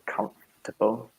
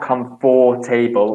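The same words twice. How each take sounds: First: The middle is squashed, with almost no vowel. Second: Every middle vowel is said fully and clearly. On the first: The speaker calls it right. "think you're German when you say comfortable" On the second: The speaker calls it wrong. "definitely not comfortable"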